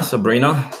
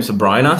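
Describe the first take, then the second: First: Sabrina with an EE, sa-BREE-na, asking; name tried out. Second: Sabrina with a long I, sa-BRY-na, rising like a question; name tried out. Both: Shown as a demonstration. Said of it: "how do you pronounce your name?".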